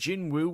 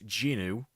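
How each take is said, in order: First: A W sound is heard before the second vowel. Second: No W sound is heard before the second vowel. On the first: The speaker calls it wrong. "it's not actually pronounced that way" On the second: The speaker calls it right. "The W is silent"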